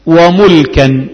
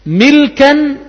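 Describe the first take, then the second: First: وملكا with a "u" after the mim, drawn out "wa-mulkan"; damma on the mim. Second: ملكا with an "i" after the mim, "milkan"; kasra on the mim. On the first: Teacher gives the second verbal noun, وملكا pronounced "wa-mulkan". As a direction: say وملكا slowly as "wa-MUL-kan". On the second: Teacher gives the first verbal noun, ملكا pronounced "milkan". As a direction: say ملكا as "MIL-kan". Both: Shown as a demonstration. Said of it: "بكسر الميم وضمها".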